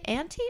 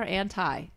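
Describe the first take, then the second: First: "anti" said as AN-tee; long-E ending. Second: "anti" said as AN-tie; long-I ending. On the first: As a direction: end anti with an EE sound. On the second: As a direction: end anti like the word tie. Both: Shown as a demonstration. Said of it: "Do you say anti or anti?".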